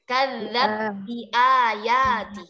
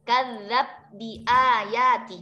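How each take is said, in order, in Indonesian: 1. b langsung menyatu dengan bi yang mengikutinya. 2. b langsung menyatu dengan bi yang mengikutinya.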